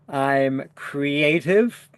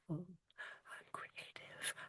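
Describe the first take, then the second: First: It is spoken in a normal voice. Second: It is spoken in a whisper.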